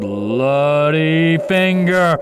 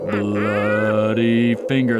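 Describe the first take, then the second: First: It is said much louder. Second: It is said more quietly.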